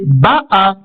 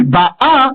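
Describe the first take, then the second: First: Ba'a with the weight on ba; accent the opening syllable of ba'a; BA'a, first syllable stressed. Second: Ba'a with the weight on the last a; accent the second syllable of ba'a; ba'A, end syllable stressed; stress on final syllable. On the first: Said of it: "cette syllabe-là qui sera désormais accentuée". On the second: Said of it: "Ça ne sera plus". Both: Shown as a demonstration.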